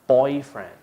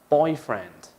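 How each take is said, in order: The two takes are said the same way.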